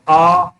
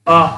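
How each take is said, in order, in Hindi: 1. स्वर खींचकर लंबा बोला जाता है। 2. स्वर छोटा और जल्दी बोला जाता है। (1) "तो ज्यादा समय लगता है।" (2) "तो देखिए कम समय लगा।"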